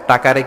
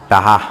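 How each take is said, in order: First: The middle consonant is a clear k sound. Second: The middle consonant is softened to an h sound. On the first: "ক বলতে পারে না বরিশালের ভাইয়েরা" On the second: "কি বলে টাহা"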